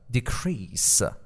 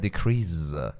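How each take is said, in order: First: The middle consonant sounds like an s. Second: The middle consonant sounds like a z. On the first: The speaker calls it right. "پس اینو ز نخونه، سه هست" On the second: The speaker calls it wrong. "دوستان خواهش میکنم اینو اشتباه نگید ... میگن decrease"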